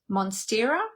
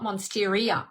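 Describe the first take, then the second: First: No extra 'ee' sound comes before the final vowel. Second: An extra 'ee' sound comes before the final vowel. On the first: The speaker calls it right. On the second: The speaker calls it wrong.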